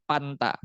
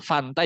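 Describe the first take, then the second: First: The word begins with a stopped p sound. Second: The word begins with a flowing f sound.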